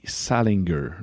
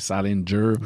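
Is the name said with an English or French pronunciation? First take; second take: French; English. First: The name is said with French sounds. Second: The name is said with English sounds. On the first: The speaker calls it wrong. "je le prononce super mal" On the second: The speaker calls it right. "Les anglophones vont dire c'est Salinger"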